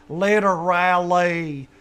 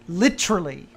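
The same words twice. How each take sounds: First: The word is drawn out and slow. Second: The word is said short and quick. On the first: The speaker calls it wrong. "it takes you like eight seconds to say that word" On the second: The speaker calls it right. "It's literally"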